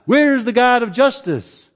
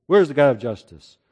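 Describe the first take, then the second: First: Higher, pushed challenge to heaven; exasperated demand. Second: Lower, dismissive doubter's question; skeptical muttered question. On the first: Doubter demanding God act, exasperated higher cry. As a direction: throw the question up in frustration. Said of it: "or by asking". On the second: Cynic today doubting God's justice, low and dismissive. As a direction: shrug it off like a cynic. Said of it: "There's people that talk like this". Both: Retold or imitated.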